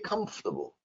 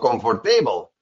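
First: The stress is on the first syllable. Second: The stress falls on a later syllable. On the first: The speaker calls it right. "I say comfortable" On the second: The speaker calls it wrong. "maybe you say comfortable or comfortable. That is wrong"

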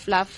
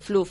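First: The name is said with an English pronunciation. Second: The name is said with a Spanish pronunciation. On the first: "en inglés" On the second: "en español"

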